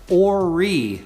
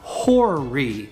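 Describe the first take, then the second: First: The word starts with a vowel, no H sound. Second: The word starts with a clear H sound. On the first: The speaker calls it right. "It is Horry, ... we want to drop the H" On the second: The speaker calls it wrong. "not Horry"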